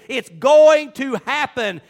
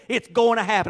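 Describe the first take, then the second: First: GOING TO HAPPEN drawn out slow and loud; emphatic repeat. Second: Said in the usual way. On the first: Real, not acted. Preacher repeating God's promise, "going to happen" slow and loud. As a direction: punch each word of "going to happen".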